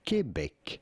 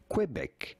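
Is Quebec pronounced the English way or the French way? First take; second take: French; English. First: The word is said with a French pronunciation. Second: The word is said with an English pronunciation. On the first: "In French, it is said Quebec" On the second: "In English, it is sometimes said as Quebec"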